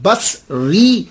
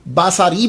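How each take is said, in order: First: The s sound runs straight into the r. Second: A short a vowel follows the s sound. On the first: It means from Basra. The speaker calls it right. "इसे pronounce किया जाएगा" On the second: It means my eye. The speaker calls it wrong. "अगर आपने स्वाद के ऊपर ज़बर पड़ा, बासारी बन गया"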